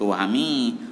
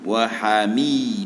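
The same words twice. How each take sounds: First: The m sound is nasalized through the nose. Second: The m sound comes clearly from the mouth. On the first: The speaker calls it wrong. "nak sengau bunyi sengau" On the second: The speaker calls it right. "betul-betul bunyi ikut mulut"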